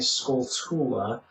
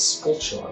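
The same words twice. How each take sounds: First: The ending is said with a plain 't' sound. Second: The ending is said with a 'ch' sound. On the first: "I used to say Skulltula" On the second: "if you take the chula part of tarantula and then the skull"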